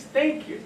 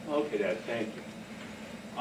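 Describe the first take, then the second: First: Higher prompting Thank you; cued thank you. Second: Low, soft, grudging "thank you"; grudging son. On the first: Shown as a demonstration. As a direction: sing out the Thank you as a cue. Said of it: "The response is". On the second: Retold or imitated. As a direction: mutter it back like a sulky kid. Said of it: "son's grudging reply".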